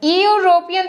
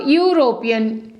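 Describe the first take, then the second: First: The word begins with a plain vowel sound. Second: The word begins with a 'y' consonant sound. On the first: The speaker calls it wrong. "यूरोपियन तो बोलते नहीं हो" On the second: The speaker calls it right. "ऐसे बोलते हो ना, ... तो start कहाँ से हुआ, बाई से"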